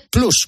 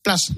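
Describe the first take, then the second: First: PLUS with a Spanish U; plus as written. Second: PLUS said as "plas". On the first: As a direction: say Plus as "ploos". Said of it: "se escribe Plus". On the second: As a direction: say Plus with an open A. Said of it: "por qué dicen Plus". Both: Shown as a demonstration.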